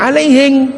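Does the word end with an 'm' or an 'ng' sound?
ng sound. The word ends with an 'ng' sound.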